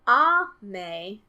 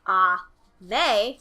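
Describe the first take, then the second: First: It has the pitch accent pattern for rain. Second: It has the pitch accent pattern for candy. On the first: The word means rain. "ame is rain" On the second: The word means candy. "Ame is candy"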